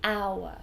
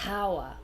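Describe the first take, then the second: First: The word starts with a vowel sound. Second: The word starts with an h sound. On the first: The speaker calls it right. "We say hour" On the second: The speaker calls it wrong. "H would be hour, but we don't say that"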